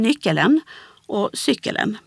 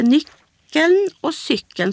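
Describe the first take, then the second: First: "nyckelen" and "cykelen" with a full extra e before the final n; Kalmar-style "nyckelen och cykelen", endings fully voiced; Kalmar pronunciation. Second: Said in the usual way. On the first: Shown as a demonstration. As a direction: add a syllable: "nyckel-en", "cykel-en". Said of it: "så blir det nyckelen". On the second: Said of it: "speciellt är det här uttalet".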